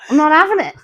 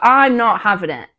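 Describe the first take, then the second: First: It is said in a put-on Australian accent. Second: It is said in the speaker's ordinary accent. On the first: "G'day, mate" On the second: "I won't try and do an Australian accent"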